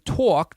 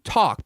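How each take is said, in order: First: The vowel has an old New York-style sound. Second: The vowel has a plain, standard sound. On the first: This is the traditional local way. "Instead of saying talk" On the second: This is how kids are taught now. "they're saying talk because it's the phonics stuff"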